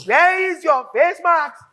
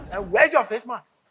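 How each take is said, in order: First: Louder, slow, every word spelt out; angry demand. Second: Said in the usual way. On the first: Acted. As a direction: bark the question at her slowly. Boss repeats it, louder, slower.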